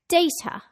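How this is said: The middle consonant is an aspirated T. "aspirate that T and say it as a T"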